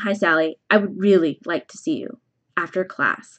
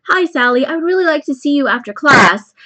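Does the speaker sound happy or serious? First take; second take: serious; happy. First: The voice sounds stern and serious. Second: The voice sounds cheerful and friendly. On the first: The student may be in trouble. "That change of tone" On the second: The speaker is pleased to see the student. "I said it in that really happy tone"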